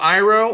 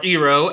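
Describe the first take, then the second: First: The name is said the usual way. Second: The name is said the movie's way. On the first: "General Iroh" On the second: "as he was pronounced in the movie"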